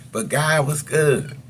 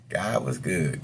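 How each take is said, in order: First: GOD said high, loud and slow; testifying that "God was good", "God" drawn out loud and high; emphatic testimony. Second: Said in the usual way. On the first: Real, not acted. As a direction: lean hard on "God" with slow praise.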